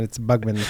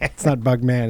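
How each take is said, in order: First: "Bugman" with a reduced "mun" ending; Bugman as one surname. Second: "Bugman" with a full "man"; Bugman as two words. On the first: Co-host giving the corrected form, "Bugman" ending in "mun". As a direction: run "Bugman" together, swallowing the second vowel. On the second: Co-host correcting how it is said, full-vowel "Bugman". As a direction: say "Bugman" as the form being corrected. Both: Shown as a demonstration.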